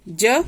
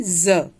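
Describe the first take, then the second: First: ज as an English j; undotted ज sound. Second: ज as a buzzing z; dotted ज sound. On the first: Teacher naming the letter before the dot, ज as j. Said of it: "इसका भी उच्चारण बदल जाता है". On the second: Teacher showing the changed sound, ज said as z. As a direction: say ज as z, not j. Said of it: "बजाय हम क्या पढ़ने लग जाते हैं?". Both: Shown as a demonstration.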